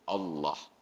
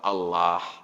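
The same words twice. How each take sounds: First: The vowel is a heavy, 'o'-like sound. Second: The vowel is a plain, thin 'a'. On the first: The speaker calls it right. "harus tafkhim, dibaca harus ada bunyi O-nya" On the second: The speaker calls it wrong. "dibaca tidak fasih"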